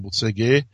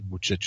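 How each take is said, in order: First: The name is said in a simplified, anglicized way. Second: The name ends with a 'ch' sound. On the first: The speaker calls it wrong. "tak jsem si to zjednodušil na Bucegi" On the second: The speaker calls it right. "ale správně skutečně má být Bučeč"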